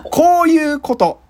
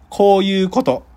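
First: Slow, growled gangster line; yakuza movie voice. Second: Said in the usual way. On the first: Shown as a demonstration. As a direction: drop into the yakuza character.

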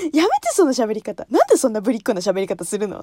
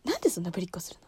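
First: Annoyed mother. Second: Quick hushed retelling; whispered mother's complaint. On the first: Mother scolding the daughter's cutesy Minnie voice. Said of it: "って言って". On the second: Quietly retelling her mother's complaint. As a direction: breathe it fast under her breath. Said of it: "喋り方が嫌いって言われる". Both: Retold or imitated.

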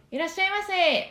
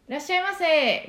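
First: 「いらっしゃいませ」 high, loud, pressed and ringing; firm shop greeting. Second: Bright, high, projected shop welcome; firm shop greeting. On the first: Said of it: "もう本当にこういう声ですよ". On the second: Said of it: "こういう声なんですけど". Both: Shown as a demonstration. Voice teacher demonstrating a closed voice, high shop greeting. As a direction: greet a customer with a clear ringing voice.

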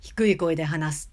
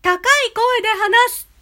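First: Low-pitched demo. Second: Much higher, louder voice; high bright-pitched demo. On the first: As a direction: drop the voice lower. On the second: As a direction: lift the voice way up. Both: Shown as a demonstration. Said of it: "高低は".

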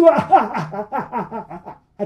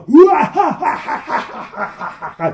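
First: Loud evil laughter, ringing on; booming laughter. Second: Loud, high, booming crowd laugh; huge mocking laughter. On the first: Endless laughter echoes from behind the door. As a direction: keep the laugh rolling. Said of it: "向こうから聞こえてくるの". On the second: A hundred voices laugh at the trapped friends, booming. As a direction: roar with evil laughter. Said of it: "大きな笑い声". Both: A narrator's reading.

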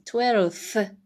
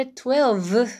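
First: Twelfth said with a clear f, "twelf-th"; the right twelfth, with the v turned into f; correct twelfth. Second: Twelfth said with a v sound, "twelv-th"; the mistaken twelfth, with v in place of f; wrong twelfth. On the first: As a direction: twelfth said with f, not v. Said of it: "Fに変わるんですね、Vが". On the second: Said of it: "って言わない". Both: Shown as a demonstration.

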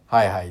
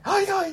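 First: Said in the usual way. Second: High はいはい on an in-breath; inhaled speech. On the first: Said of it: "って言うよね". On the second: Shown as a demonstration. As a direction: suck the breath in on both はい. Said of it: "って言わないよね".

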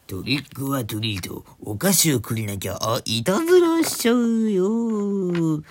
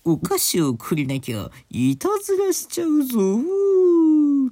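First: Drawn-out kabuki-style cry, rising high and loud; kabuki actor. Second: Hammed-up kabuki cry, soaring very high, loud and long; exaggerated kabuki actor. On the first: Host playfully trying a Halloween trick-or-treat line, kabuki-like drawl. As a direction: stretch it out like a stage kabuki actor. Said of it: "歌舞伎役者みたいな". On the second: Host redoing the Halloween threat for laughs, full kabuki howl. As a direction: overdo the kabuki, holding the last vowel high. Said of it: "歌舞伎かっていうね". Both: Shown as a demonstration.

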